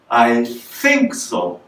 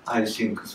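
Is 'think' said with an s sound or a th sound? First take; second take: th sound; s sound. First: Think starts with a breathy tongue-between-teeth th. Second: Think starts with a hissing s-like sound. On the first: "舌を前に出して、そして息を出すようなつもりで、スッとこうやりますよね" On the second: "日本人はどうやって喋るかというと"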